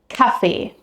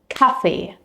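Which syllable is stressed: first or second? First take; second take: first; first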